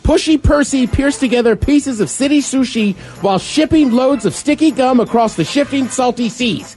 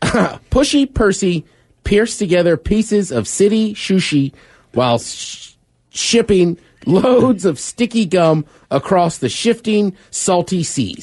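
First: It is said fast. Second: It is said at a normal pace.

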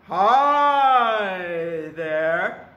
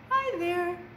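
First: It is said in a big goat's voice. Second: It is said in a small goat's voice.

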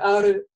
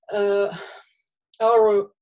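First: The r is cut off sharply without holding. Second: The r is curled back like English. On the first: "резко ары, нет" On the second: "тоже неверно, когда назад язык, как английскую"

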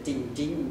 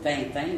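First: The name has English-style vowels. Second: The name has the French nasal vowels. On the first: This is the name adapted for an American audience. The speaker calls it wrong. "au lieu de Tintin" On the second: This is the original name as readers know it. The speaker calls it right. "il aurait dû s'en tenir au mot Tintin"

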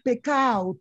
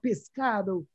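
First: The s and d sounds are dropped. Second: Every sound of the word is pronounced. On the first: It is the local dialect form. "perfectly correct dialect with acceptable things like saying pecao" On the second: It is the educated standard form. "we learn Spanish. And we say pescado"

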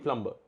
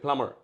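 First: A b sound is heard after the m. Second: No b sound is heard after the m. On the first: This is how it is said locally. "আমরা বলি প্লাম্বার" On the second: This is how Americans say it. "If you আর American you can say প্লামার, বিটা নেই"

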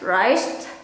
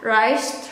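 First: It is said in a relaxed, casual everyday way. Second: The same.

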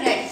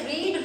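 First: The vowel is short, as in 'red'. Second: The vowel is long, as in 'reed'. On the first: It is the past participle of the verb. "Third form में रेड पढ़ा जाएगा" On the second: It is the present form of the verb. "Pronunciation अलग हो जाएगा, आपको पढ़ना है रीड"

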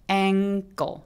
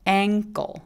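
No difference in how they are said.

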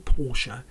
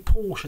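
First: The name is said in a refined, posh way. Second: The name is said in a casual, common way. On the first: This is a way the speaker does not say it. "I don't say Porsche" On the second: This is how the speaker normally says it. "I'm common. I say Porsche"

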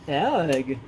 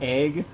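First: The word is said in an unusual foreign-sounding accent. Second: The word is said in the ordinary usual accent. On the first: The speaker calls it wrong. "it says like egg" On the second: The speaker calls it right. "instead of egg"

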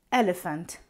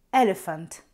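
The two takes are said the same way.

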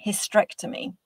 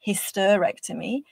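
First: The first E vowel is left out. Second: The first E vowel is clearly pronounced. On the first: The speaker calls it wrong. "you're saying hysterectomy" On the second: The speaker calls it right. "you're not pronouncing hysterectomy"

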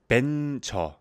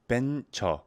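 First: The word begins with a B sound. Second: The same.

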